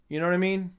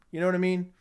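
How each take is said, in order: Both takes have the same delivery.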